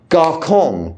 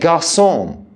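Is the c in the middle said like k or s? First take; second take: k; s. First: The middle consonant sounds like a k. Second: The middle consonant sounds like an s. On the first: The speaker calls it wrong. "We don't say garçon" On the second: The speaker calls it right. "We say garçon"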